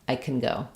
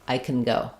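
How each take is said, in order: No difference in how they are said.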